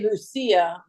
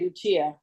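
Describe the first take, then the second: First: The name is pronounced the Italian way. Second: The name is pronounced the English way. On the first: "you say Lucia, ... but the Italian comes through there" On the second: "we would say Lucia"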